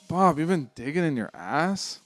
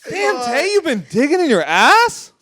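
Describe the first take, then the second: First: The line sounds disappointed. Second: The line sounds surprised.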